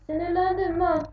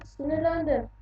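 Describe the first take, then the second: First: Irritated declaration. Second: Said in the usual way. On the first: Real, not acted.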